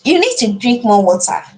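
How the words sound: It sounds gentle and supportive.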